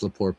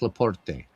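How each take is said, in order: First: The name is pronounced with French sounds. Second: The name is pronounced with Italian sounds. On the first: "if he's French, it's Laporte" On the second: "I use the Italian pronunciation"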